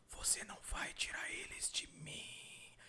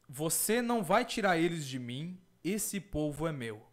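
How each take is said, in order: First: Slow, drawn-out eerie whisper; sussurrando, imitated whisper. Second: Said in the usual way. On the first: Man imitating the voice he heard at night, sussurrando slowly. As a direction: whisper it slowly, stretching the final "mim". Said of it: "foi sussurrando, falou assim". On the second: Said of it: "Falou mais ou menos assim".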